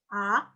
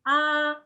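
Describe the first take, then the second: First: The pitch rises without dipping first. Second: The pitch stays high and level.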